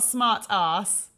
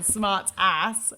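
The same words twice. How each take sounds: First: It is said in a British accent. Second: It is said in an American accent. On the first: "That would be a British" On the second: "in an American accent"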